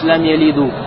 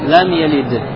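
First: The verb ends with a final 'u' vowel. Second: The verb ends on a bare consonant. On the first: The speaker calls it wrong. "Не говоришь лам ялиду" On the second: The speaker calls it right. "а говоришь как? ... сукуном"

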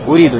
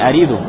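First: The word starts with a 'u' vowel. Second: The word starts with an 'a' vowel. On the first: The speaker calls it right. "должно быть уриду" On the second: The speaker calls it wrong. "не ариду"

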